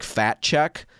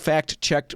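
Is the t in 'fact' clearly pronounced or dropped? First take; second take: dropped; pronounced. First: The t sound drops, so it sounds like fat. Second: The t sound in fact is clearly pronounced. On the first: "it normally sounds like fat check" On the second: "I'm saying it that way because"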